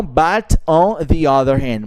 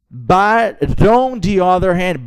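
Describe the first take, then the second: First: "but on the other hand" each word separate; teacher shows the separated wrong reading; unlinked. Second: "on the other" flowing together; teacher models the linked phrase. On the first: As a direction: stop between every word, the wrong way. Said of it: "não". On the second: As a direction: run "on" into "the other". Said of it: "não but on the other hand". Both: Shown as a demonstration.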